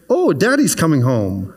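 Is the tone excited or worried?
excited. It sounds happy and excited.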